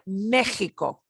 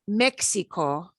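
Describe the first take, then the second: First: The middle consonant is a throaty H sound. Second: The middle consonant is not a throaty sound. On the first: The speaker calls it right. "pronounce them like the J ... the throaty H" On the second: The speaker calls it wrong. "So not Mexico"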